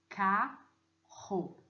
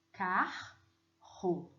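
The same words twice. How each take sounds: First: Carro said as one flowing sound, car-ro by ear. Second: Carro split into ca-rro, syllable by syllable. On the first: Teacher sounding carro poetically. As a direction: voice Carro as it is heard in verse. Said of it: "E sonoramente". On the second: Teacher splitting carro for the class. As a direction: break Carro into its grammar syllables. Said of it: "separando gramaticalmente". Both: Shown as a demonstration.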